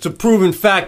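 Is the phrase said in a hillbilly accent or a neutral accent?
neutral. It is said in the speaker's own neutral accent. "But he doesn't say it like that"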